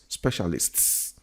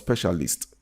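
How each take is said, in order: First: The word ends with a clear S sound. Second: The word ends without the final S sound. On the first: The speaker calls it right. "it's specialists. You have to pronounce that" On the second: The speaker calls it wrong. "So it's not specialist"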